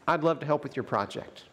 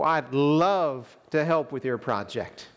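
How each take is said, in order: First: It is said in a sincere, straightforward way. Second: It is said in a sarcastic, mocking way. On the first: The offer to help is genuine. "I can say" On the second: The speaker does not want to help. "think about sarcasm and how we can give sort of a rough edge to otherwise innocent words"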